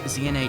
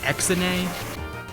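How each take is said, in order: First: The first letter is said as 'zee'. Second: The first letter is said as 'ex'. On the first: The speaker calls it right. "Z N A does" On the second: The speaker calls it wrong. "X N A doesn't work"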